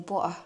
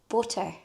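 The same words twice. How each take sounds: First: The middle T is dropped, not pronounced. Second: The middle T is pronounced clearly. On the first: "I don't pronounce the T's" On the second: "She's like, pronounce your T"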